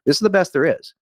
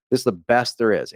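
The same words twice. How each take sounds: First: "This is the best there is." raised high and pushed; emphatic first take. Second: Said in the usual way. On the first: Shown as a demonstration. Pitching the offer to viewers, raised emphatic take. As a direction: sell "the best" with a lift. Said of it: "repeats line with emphasis". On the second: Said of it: "repeats line calmly".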